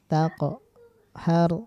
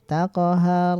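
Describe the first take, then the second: First: A strong bounce breaks the word in two. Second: The word runs on with only a light bounce. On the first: The speaker calls it wrong. "jangan taqo har" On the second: The speaker calls it right. "kayak jalan aja"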